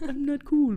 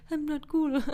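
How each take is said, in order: First: Higher, louder mock voice; Dewey impression. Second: Higher mock voice; Dewey impression. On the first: Host repeating Dewey's line, hammed up. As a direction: belt it like Dewey. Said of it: "but then he's like". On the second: Cohost quoting Dewey's line, lightly voiced. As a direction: toss it off like Dewey. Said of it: "I love his impression".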